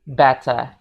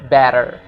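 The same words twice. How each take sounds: First: The final R is silent. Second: The final R is pronounced strongly. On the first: This is the British pronunciation. "kalau versi British English, mereka bakal bilang better" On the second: This is the American pronunciation. "versi American English, mereka bakal bilang better"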